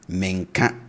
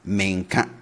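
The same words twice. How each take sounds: The two takes are said the same way.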